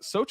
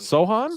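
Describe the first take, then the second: First: The middle of the name has a 'ch' sound. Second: The middle of the name has an 'h' sound. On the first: The speaker calls it wrong. "I've been saying like an idiot this whole time" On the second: The speaker calls it right. "That C is silent"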